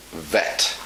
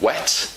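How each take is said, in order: First: "vet" with v in place of w; German v for W. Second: "wet" with a rounded English w; correct W. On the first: Teacher imitating German learners, wet turned into "vet". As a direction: bite a v at the start of "vet". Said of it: "they say vet". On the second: Teacher showing the English sound, "wet" with clear w. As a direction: round the lips to start "wet". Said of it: "Germans often don't pronounce the W". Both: Shown as a demonstration.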